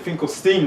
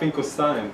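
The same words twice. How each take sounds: First: The last syllable sounds like 'steen'. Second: The last syllable sounds like 'stine'. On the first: This is how the family says the name. "you pronounce it Finkelstein" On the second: This is how a German would say the name. "not Finkelstein"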